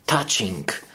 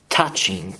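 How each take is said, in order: Both takes have the same delivery.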